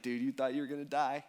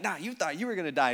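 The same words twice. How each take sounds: First: Said in the usual way. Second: "you" punched to throw the tease back; stress on you. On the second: Retold or imitated. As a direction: lean on "you" in playful retort. Teasing thrown back at a friend.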